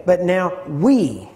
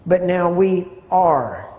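First: Slow right down and punch "we"; stress on WE. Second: "are" stretched out and hit hard, falling; slow down and land heavily on "are"; stress on ARE. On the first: Teacher moving emphasis along the verse, stress on "we". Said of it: "putting emphasis on different words". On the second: Teacher moving emphasis to the next word, stress on "are". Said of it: "with a different emphasis on the word". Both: Shown as a demonstration.

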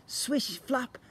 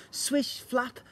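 No difference in how they are said.

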